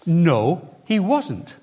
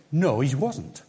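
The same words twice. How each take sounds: First: Firm No, he wasn't with stress on he; said very clearly. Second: Said in the usual way. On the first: Retold or imitated. Gideon answering the angel, said very clearly. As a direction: spell it out plainly and firmly. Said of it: "says to the angel very clearly". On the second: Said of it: "And he says".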